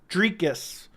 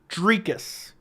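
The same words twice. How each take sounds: First: The first syllable sounds like the word tree. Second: The first syllable sounds like the word tree.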